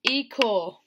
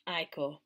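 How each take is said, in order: First: The name begins with an 'ee' sound. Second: The name begins with an 'eye' sound. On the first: The speaker calls it wrong. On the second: The speaker calls it right.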